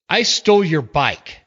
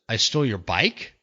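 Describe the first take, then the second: First: It sounds like a defiant statement. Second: It sounds like a disbelieving question.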